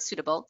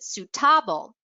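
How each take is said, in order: First: The stress falls on the usual syllable. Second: The stress falls on an unexpected syllable. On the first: This is the intended word. The speaker calls it right. "They meant to say the word suitable" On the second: Listeners heard a different word. The speaker calls it wrong. "but they pronounced it suitable"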